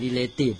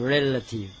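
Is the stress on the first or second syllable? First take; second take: second; first. First: The stress is on the second syllable. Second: The stress is on the first syllable. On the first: The speaker calls it wrong. "เราไม่รู้เราก็อ่าน, relation, เราก็อ่าน" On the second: The speaker calls it right. "ใช่ไหมเปล่าไม่ใช่"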